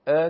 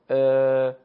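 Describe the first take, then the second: First: ا as a brief a, one beat; short Arabic fatha. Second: ا held long and loud; long Arabic alef. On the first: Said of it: "فتحه رو بیان کردیم به صورت". (فتحهٔ عربی، ا کوتاه) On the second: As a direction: stretch ا out loudly as a long a. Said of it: "الف مدی به صورت". (الف مدی، ا کشیده و بلند) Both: Shown as a demonstration.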